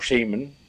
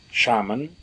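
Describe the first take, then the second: First: "shaman" said SHAY-mun; first vowel of "shaman" as in shame. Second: "Shaman" said SHAH-mun; first vowel of "Shaman" as in father. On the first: Offering the other way to say a translated word, "shaman" as SHAY-mun. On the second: Offering one way to say a translated word, "Shaman" as SHAH-mun. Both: Shown as a demonstration. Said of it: "however you want to say it".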